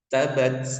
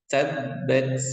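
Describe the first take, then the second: First: The b sound is single and short. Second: The b sound is doubled and pressed. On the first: The speaker calls it wrong. "Tidak boleh contoh salahnya" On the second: The speaker calls it right. "jadi harus ditekan dulu"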